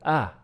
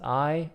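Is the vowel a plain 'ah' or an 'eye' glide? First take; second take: plain ah; eye glide. First: The vowel is a plain open 'ah'. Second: The vowel glides like the word 'eye'. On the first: "or simply ah" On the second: "I can be either pronounced as I"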